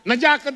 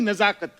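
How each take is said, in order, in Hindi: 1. बीच का व्यंजन सामान्य j ध्वनि है। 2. बीच का व्यंजन z ध्वनि है। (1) "नजाकत नहीं, ... ज नहीं" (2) "ज के नीचे नुक्ता है"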